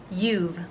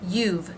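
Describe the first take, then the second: The two takes are said the same way.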